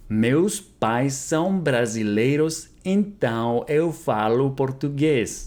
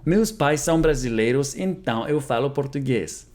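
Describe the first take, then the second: First: Slow, careful, clearly spaced words; slow model repeat. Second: Said in the usual way. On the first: Shown as a demonstration. Teacher repeating Portuguese for students, slow and careful. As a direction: say it slowly for learners to copy. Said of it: "slow repeat of model". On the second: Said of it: "repeated model sentence".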